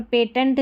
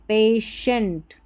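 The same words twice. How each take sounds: First: पेटेंट with a hard t, "pay-tent"; "tent" as second syllable of पेटेंट; wrong "patient". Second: पेशेंट slowly, with a sh, "pay-shent"; correct "patient". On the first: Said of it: "पेटेंट नहीं पढ़ेंगे". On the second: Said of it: "टी आई है ना, इसको श पढ़ा गया". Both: Shown as a demonstration.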